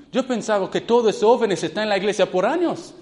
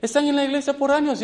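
First: Said in the usual way. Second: Higher, fast insistence on "años"; stressed repeat. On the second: Shown as a demonstration. Preacher stressing to youth how long they had attended. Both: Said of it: "repeats phrase".

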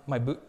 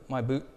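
The two takes are said the same way.

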